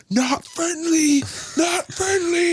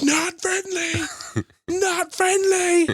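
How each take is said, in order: First: Very high, drawn-out cry; imitated video warning. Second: Very high, stretched-out call; imitated video warning. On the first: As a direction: mimic a viral clip with a high, stretched call. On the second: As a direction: mimic the viral clip, pitched way up. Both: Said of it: "the sound in the background's like".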